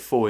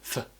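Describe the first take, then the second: First: The word is said in its full form. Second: The word is cut down to a short sound. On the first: "four is becoming" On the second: "becoming f"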